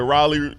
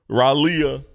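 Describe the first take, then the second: First: It is said the usual way, Raleigh. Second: It is said with an extra syllable, Ralia. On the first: The speaker calls it right. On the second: The speaker calls it wrong.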